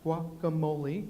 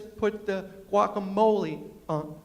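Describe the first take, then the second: First: "guacamole" repeated slowly and softly, echoing the waitress. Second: Slow waitress instruction, "guacamole" drawn out; "guacamole" said slowly. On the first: Shown as a demonstration. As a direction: murmur "guacamole" back slowly like a learner. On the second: Retold or imitated. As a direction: spell out "guacamole" like a waiter teaching. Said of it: "she says".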